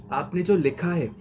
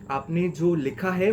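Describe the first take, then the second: First: Said in the usual way. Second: Slow teacher emphasis on है; slow emphatic repeat. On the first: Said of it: "teacher repeats key phrase". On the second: Shown as a demonstration. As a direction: stretch out आपने जो लिखा है with है drawn out. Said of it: "teacher repeats key phrase slowly".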